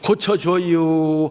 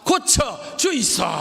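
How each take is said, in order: First: It is said in Chungcheong dialect. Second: It is said in Gyeongsang dialect.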